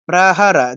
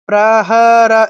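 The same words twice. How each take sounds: First: The vowels are short and said quickly. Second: The vowels are drawn out long. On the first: The speaker calls it right. "তাড়াতাড়ি বলে ফেলতে হবে" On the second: The speaker calls it wrong. "এরকম করে দীর্ঘ করা যাবে না"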